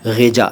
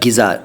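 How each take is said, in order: First: It starts with a throaty gh and has j. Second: It starts with a plain g and has z. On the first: "नहीं कह रहा" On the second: "नहीं कह रहा"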